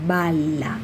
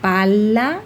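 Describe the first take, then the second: First: BALA drawn out with falling end and voiced B; clear B sound. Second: PALA drawn out with rising end and crisp P; clear P sound. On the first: Teacher giving a phonology example, bala enunciated with B. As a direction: say "bala" as the answering half of the pair. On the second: Teacher giving a phonology example, pala enunciated with P. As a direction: say "pala" as the first of a contrasting pair. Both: Shown as a demonstration. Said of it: "Ejemplo, les decía".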